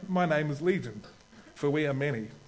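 It is said in an Australian-Kiwi accent.

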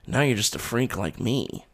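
It is said in a quiet, low-key way.

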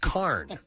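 The vowel is an 'ar' sound.

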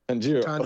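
The name is said in a Japanese-like way. The speaker calls it right. "that does sound more like authentic Japanese"

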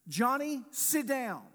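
The command is said in a stern, authoritative voice. The request must be obeyed now.

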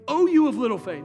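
It is said as a harsh rebuke.

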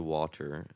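It is said with an exaggerated hard T. This is the speaker's trained pronunciation. "I don't say it with a hard T like that in real life"

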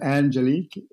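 The name is said with an English pronunciation. "So it's pronounced Angelique in English"

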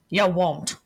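It is said in a blunt, New Yorker-like put-on voice. "Do it as Gerald"

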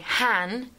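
It is said with an English vowel, like man.

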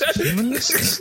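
It is said as a question, rising.

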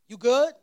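It sounds like a concerned question about wellbeing.

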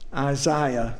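It is said in a British accent.

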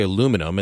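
It is said the North American way, with four syllables. "We say in Canada, English Canada in the United States, we say aluminum"

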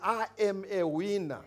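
It is said in a strong African accent.

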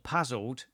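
It is said in a southern English accent.

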